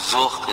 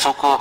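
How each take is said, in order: First: The word ends in a consonant sound. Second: The word ends with an added vowel sound. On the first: This is the original pronunciation. "orang-orang kita susah kan nyebut zuk" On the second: This is how local people say it. "pelafalan lokal lokal people itu nyebutnya suku"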